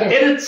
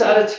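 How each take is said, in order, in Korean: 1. 이 단어는 'e' 모음으로 시작해요. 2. 이 단어는 'a' 모음으로 시작해요. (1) "실제로는 에르츠인데요" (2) "아로 바뀌었는 겁니다"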